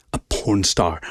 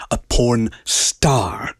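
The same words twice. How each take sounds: First: Said in the usual way. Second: Drawn-out, incredulous repeat; slow stunned exclamation; stunned slow disbelief. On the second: A narrator's reading. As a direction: savour the shock slowly. Shocked inner repetition.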